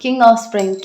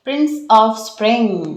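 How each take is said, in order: First: King of Spring said a little louder as the fix; quick correction, King stressed; self-correction. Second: Slowly reading out Prince of Spring by mistake; slip of the tongue. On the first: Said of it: "क्या कहा था मैंने?". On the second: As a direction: drag out Prince of Spring, unsure of the card. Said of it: "क्या कहा था?". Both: Real, not acted.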